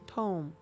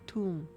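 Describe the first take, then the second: First: The vowel is an 'oh' sound, like tone. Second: The vowel is an 'oo' sound, like tomb. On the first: The speaker calls it right. "it should probably be tome" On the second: The speaker calls it wrong. "I pronounce it tomb either way"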